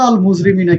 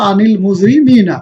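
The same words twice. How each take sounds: First: Said in the usual way. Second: আনিল মুজরিমিনা linked with an "i"; slow recited demo of আনিল মুজরিমিনা; joined reading. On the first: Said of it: "আন একটা শব্দ". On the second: Shown as a demonstration. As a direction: slowly run the words together as আনিল মুজরিমিনা. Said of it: "জের দিয়ে পড়তে হবে".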